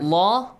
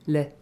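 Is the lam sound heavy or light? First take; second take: heavy; light. First: The lam is pronounced with a heavy, full sound. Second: The lam is pronounced with a light, thin sound.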